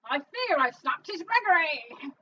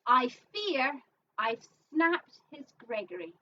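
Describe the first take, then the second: First: It is said in a Cockney accent. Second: It is said in a plain accent.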